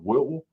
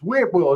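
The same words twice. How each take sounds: First: The T sound in the middle is left silent. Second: The T sound in the middle is clearly pronounced. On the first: The speaker calls it wrong. "It's not Whitwell" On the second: The speaker calls it right. "There's a T in there"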